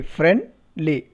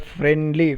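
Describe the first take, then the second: First: "friendly" split as friend, pause, ly; syllable by syllable. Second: Said in the usual way. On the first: Shown as a demonstration. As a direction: break "friendly" into its two syllables. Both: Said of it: "Two syllables there".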